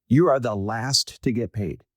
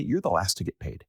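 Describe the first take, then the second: First: "You are" drawn out slow and firm, "You" hit hard; slow, firm "You are the last", weight on "You"; stress on YOU, slowed. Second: Said in the usual way. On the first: Shown as a demonstration. To founders, hammering home a hard truth slowly.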